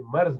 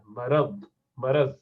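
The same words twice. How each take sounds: First: مرض said as "marz", with the r left without a vowel; the wrong take, مرض as "marz"; wrong pronunciation. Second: مرض said as "maraz", with a zabar vowel on the r; the right take, مرض as "ma-raz"; correct pronunciation. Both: Shown as a demonstration. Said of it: "را پر زبر ہونا چاہیے".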